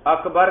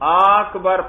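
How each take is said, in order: First: The first vowel is short. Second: The first vowel is drawn out long. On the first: The speaker calls it right. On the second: The speaker calls it wrong.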